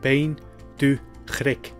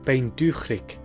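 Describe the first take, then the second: First: It is said slowly and carefully. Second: It is said at a normal speaking speed. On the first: "and then slowly too" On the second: "I'll pronounce them like I would naturally"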